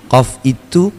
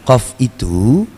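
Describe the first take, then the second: No difference in how they are said.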